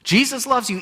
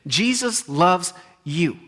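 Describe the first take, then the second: First: Higher, punched with full voice; emphatic proclamation. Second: Very slow, each word weighed; slow right down and let it land; slow deliberate emphasis. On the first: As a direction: proclaim it boldly to the room. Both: Real, not acted.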